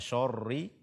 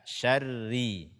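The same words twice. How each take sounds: First: The sh and r sounds are thick and heavy. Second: The sh and r sounds are thin and light. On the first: The speaker calls it wrong. "menebalkan shin dan ro pada kata syarri, jangan dibaca syarri" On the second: The speaker calls it right. "akan tetapi baca dengan sya, syarri"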